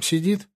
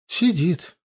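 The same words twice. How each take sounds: First: "сидит" with a rising, questioning end; higher, rising "сидит". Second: "Сидит" as a statement, starting high and falling; confirming. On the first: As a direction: ask "сидит" as a question, pitch lifting. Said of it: "спросила её дежурная медсестра". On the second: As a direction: confirm with "Сидит", pitch dropping at the end. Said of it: "подтвердила Инна". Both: A narrator's reading.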